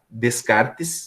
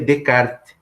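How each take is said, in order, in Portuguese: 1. O nome é pronunciado à maneira portuguesa. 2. O nome é pronunciado à maneira francesa. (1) "se escreve assim" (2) "mas a pronúncia é René Descartes, que ele é francês"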